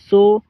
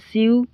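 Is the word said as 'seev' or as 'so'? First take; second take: so; seev. First: The word is said like 'so' without a v. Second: The word is said like 'seev' with a v. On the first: The speaker calls it right. "लेकिन इसका pronunciation होता है सो" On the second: The speaker calls it wrong. "आपको ये देखने में लगेगा सीव"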